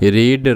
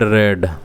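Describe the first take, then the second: First: The vowel is long, like 'reed'. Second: The vowel is short, like 'red'. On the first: It is present tense. "Present tense रे आमे ताकू रीड बोली पढ़ीबा" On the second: It is past tense or past participle. "Past tense और past participle ताऊ रेड बोली पढ़ा जाए"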